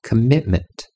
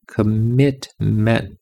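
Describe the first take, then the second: First: Said in the usual way. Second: Very slow, stretched commitment; "Commitment" spoken very slowly with every sound drawn out. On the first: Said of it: "repeats word, then stretches it". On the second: Shown as a demonstration. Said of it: "same word slowed right down".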